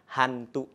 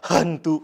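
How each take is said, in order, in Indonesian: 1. Bunyi h-nya lembut dan biasa. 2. Bunyi h-nya dipaksakan dan berlebihan. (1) "biasa saja" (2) "tidak seperti itu"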